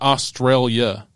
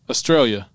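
First: The word ends with an 'ailia' sound. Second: The word ends with a plain 'ia' sound. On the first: The speaker calls it wrong. "as most people say, A-I-L-I-A" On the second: The speaker calls it right. "It's Australia"

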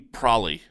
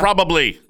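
First: The word is shortened to two syllables. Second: The word is said with all three syllables. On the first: The speaker calls it wrong. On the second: The speaker calls it right.

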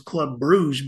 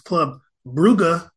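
First: The name is said as 'Bruges'. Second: The name is said as 'Brugge'. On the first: The speaker calls it wrong. "I thought it was Club Bruges" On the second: The speaker calls it right. "but it's Club Brugge"

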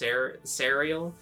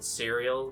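First: The name is said in a Southern accent. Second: The name is said in a plain accent. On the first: "if I say it with a southern accent, it becomes" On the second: "just saying it a normal"

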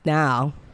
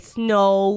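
First: Snow is said in a Southern accent. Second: Snow is said in a Northern accent. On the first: "Down here they're more like snow" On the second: "Like when you say say Northern, you say snow"

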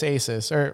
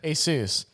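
First: The second syllable does not rhyme with Seuss. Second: The second syllable rhymes with Seuss. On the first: The speaker calls it wrong. "the majority of people agree it's Asus" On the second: The speaker calls it right. "Like Dr. Get Seuss"

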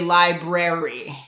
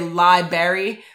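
First: Both r sounds are clearly pronounced. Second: The first r sound is left out. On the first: The speaker calls it right. "say library" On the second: The speaker calls it wrong. "Don't say library, ... people are forgetting that extra R"

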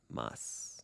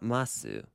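First: The final u vowel is devoiced, nearly silent. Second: The final u vowel is clearly voiced. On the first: The speaker calls it right. "but mas" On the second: The speaker calls it wrong. "Not masu"

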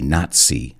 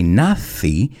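First: The middle consonant is a TS sound. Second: The middle consonant is a plain Z sound. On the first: The speaker calls it right. "like a TS sound" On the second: The speaker calls it wrong. "we don't say Nazi"

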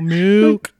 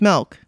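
First: It is said in a lowered, deeper voice. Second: It is said in her normal voice.

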